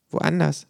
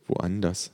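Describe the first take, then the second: First: High, musing echo; pondering kangaroo. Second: Soft, feeble mumble; weak murmur. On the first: Kangaroo echoing the patient, high pondering voice. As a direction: repeat it as if mulling it over. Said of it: "wiederholt das Känguru grübelnd". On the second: Migraine sufferer sending kangaroo away, weakly murmured. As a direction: murmur it with little strength. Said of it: "murmel ich schwach". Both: A narrator's reading.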